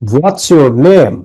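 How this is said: The voice falls at the end. The speaker calls it right. "কণ্ঠ নিচে নামবে"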